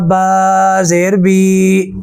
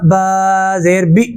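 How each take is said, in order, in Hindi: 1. अंतिम स्वर लंबा खिंचा हुआ है। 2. अंतिम स्वर झटके से कटा हुआ है। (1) "लंबा नहीं करना" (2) "झटका नहीं लगाना"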